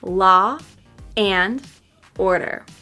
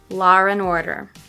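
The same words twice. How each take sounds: First: The words are said apart with breaks. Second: The vowel flows into and without r. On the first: "first with the words separated" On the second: "linking them but not using the intrusive R"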